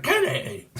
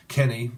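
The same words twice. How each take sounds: First: Very high squealed name; cartoonish mock call. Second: Said in the usual way. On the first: Imitating a TV character calling Kenny, very high voice. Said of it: "Kenny, you're like". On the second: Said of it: "you're like".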